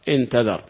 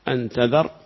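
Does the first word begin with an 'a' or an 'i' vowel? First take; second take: i; a. First: The first word begins with an 'i' vowel. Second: The first word begins with an 'a' vowel. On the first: "وكسرها" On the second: "بفتح الهمزة"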